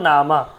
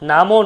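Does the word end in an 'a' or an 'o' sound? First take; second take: a; o. First: The word ends in an 'a' vowel. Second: The word ends in an 'o' vowel. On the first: The speaker calls it right. "মামা নামা" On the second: The speaker calls it wrong. "নামও নয়"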